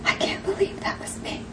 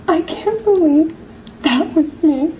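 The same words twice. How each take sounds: First: Soft, breathless whisper. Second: Said in the usual way. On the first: Retold or imitated. Carrie confessing in tears, a soft whisper. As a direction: barely breathe the words out. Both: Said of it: "she whispers".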